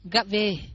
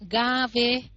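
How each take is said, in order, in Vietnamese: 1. Nguyên âm được giữ ngắn. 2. Nguyên âm được kéo dài. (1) "mà chữ ngắn là ga về" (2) "Từ ngắn từ dài mình sẽ đọc là ga về"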